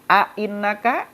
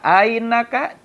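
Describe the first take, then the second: First: Both glottal catches are pronounced fully. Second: The second glottal catch is softened toward 'y'.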